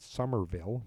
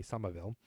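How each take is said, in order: First: "Somerville" with a clear American R, sum-er-ville; "Somerville" said the standard way, R sounded. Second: "Somerville" the Boston way, R dropped: summa-ville; "Somerville" local style, no R in the middle. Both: Shown as a demonstration. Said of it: "but we say Somerville".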